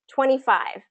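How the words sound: The stress falls on twenty. It is a number said as a quantity. "it's more first syllable stress"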